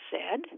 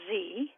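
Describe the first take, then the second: First: The letter is said as zed. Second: The letter is said as zee.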